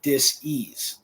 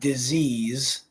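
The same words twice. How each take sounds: First: It is split into dis and ease. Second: It is said as one smooth word. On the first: The speaker calls it right. "It should be dis-ease" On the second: The speaker calls it wrong. "which is not really how it should be pronounced"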